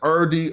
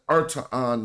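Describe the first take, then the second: First: The consonant after the R is a D. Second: The consonant after the R is a T. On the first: "Right now, I say Erdi" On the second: "you probably pronounce a T there"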